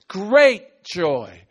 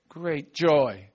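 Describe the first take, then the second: First: It is said loudly, with big energy. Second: It is said weakly, with little energy. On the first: The joy is huge and overflowing. The speaker calls it right. "It's great joy" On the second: The joy sounds small and half-hearted. The speaker calls it wrong. "you don't say it like this. You don't go great"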